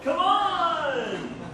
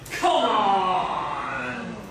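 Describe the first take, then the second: First: It sounds rallying, as if urging someone along. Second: It sounds scolding, as if telling someone off. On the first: It is time to leave together. "let's go" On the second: The listener should stop what they are doing. "stop it"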